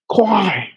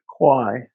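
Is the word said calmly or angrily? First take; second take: angrily; calmly. First: The word is said angrily. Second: The word is said calmly.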